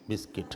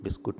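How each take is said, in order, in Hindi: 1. दूसरे अक्षर में 'i' स्वर है। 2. दूसरे अक्षर में 'u' स्वर है। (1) "वो है शब्द बिस्किट" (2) "पुराने लोग बिस्कुट बोलते थे"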